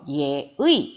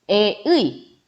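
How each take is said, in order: First: The first syllable is a 'ye' sound with glide. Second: The first syllable is a plain 'e' sound. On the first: The speaker calls it right. "예의 이렇게 정확하게 발음해 주셔야 한다는 겁니다" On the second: The speaker calls it wrong. "에의 뭐 이런 식으로 다르게 발음하시면 안 된다라는 거예요"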